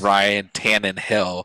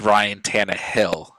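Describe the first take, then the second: First: An extra n sound comes before hill. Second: No extra n sound comes before hill. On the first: The speaker calls it wrong. "always been saying" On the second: The speaker calls it right. "but it's Ryan Tannehill"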